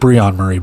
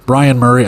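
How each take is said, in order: First: The first name sounds like Breon. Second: The first name sounds like Brian. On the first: The speaker calls it right. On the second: The speaker calls it wrong.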